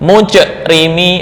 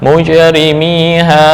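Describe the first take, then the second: First: The word ends with a closed glottal stop. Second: The word ends with a neutral released bounce. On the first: The speaker calls it wrong. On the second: The speaker calls it right.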